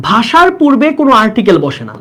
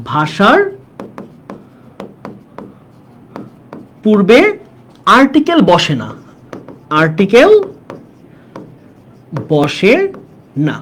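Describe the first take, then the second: First: Said in the usual way. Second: Note dictation. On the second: Shown as a demonstration. Teacher has students take down a grammar note, halting dictation. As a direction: piece by piece, long pauses between words. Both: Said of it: "এখানে ছোট্ট দুইটা note নাও তোমরা".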